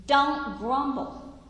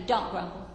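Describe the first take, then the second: First: "Don't grumble" drawn out slowly and pitched higher, leaning on "Don't"; slow emphatic warning. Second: Said in the usual way. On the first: Shown as a demonstration. Preacher warns the congregation, slow and firm. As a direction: press each word of "Don't grumble" slowly and firmly. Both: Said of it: "I'm gonna challenge you".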